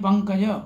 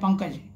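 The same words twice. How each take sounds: First: The final consonant carries a full vowel. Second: The final consonant is clipped with no vowel. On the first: The speaker calls it right. "सुनने में शुद्ध और शुद्ध भी उच्चारण होता है" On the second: The speaker calls it wrong. "Last में हलंत लगा देते हैं, लास्ट वाला जो वर्ण है उसको पूरा नहीं बोलते हैं"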